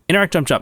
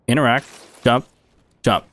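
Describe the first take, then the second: First: The three words are said fast. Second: The three words are said slowly.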